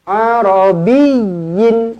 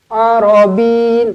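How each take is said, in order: First: The middle 'y' sound is doubled and stressed. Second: The middle 'y' sound is short and single. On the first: The speaker calls it right. "Tekankan ya sabdu di sini" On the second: The speaker calls it wrong. "Tak boleh Arabin"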